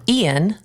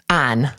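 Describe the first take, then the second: First: The name is said the general way. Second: The name is said the Southern way. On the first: It is the fancy way to say it. "they like say it in a fancy way" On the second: It is the plain, down-to-earth way to say it. "He himself pronounced it this way"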